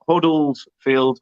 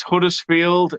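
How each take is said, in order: First: "Huddlesfield" said slowly with an l in the middle: HUD-dles-field; wrong pronunciation. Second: "Huddersfield" said slowly with a clear d in the middle: HUD-ers-field; correct pronunciation. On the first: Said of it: "not Huddlesfield". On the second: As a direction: spell out "Huddersfield" slowly and carefully, with the d. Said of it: "Ryan says it's Huddersfield". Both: Shown as a demonstration.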